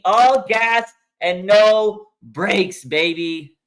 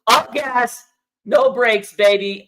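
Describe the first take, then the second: First: Slow, loud stretched slogan; drawn out. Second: Chanted, loud punchy catchphrase; chanted, fire off the slogan; hype chant. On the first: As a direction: stretch every word of the slogan. Slowed repeat of catchphrase. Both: Real, not acted.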